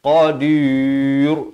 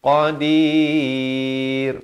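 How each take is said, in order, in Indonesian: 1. Bunyi r itu berat dan tebal. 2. Bunyi r itu ringan dan nipis. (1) "Jangan baca tebal" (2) "ra di sini jadi nipis"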